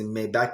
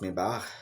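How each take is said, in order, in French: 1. Le nom se prononce à l'anglaise. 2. Le nom se prononce à l'allemande. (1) "on dit Maybach parce qu'on le dit en anglais" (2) "en allemand, ça se prononce Maybach"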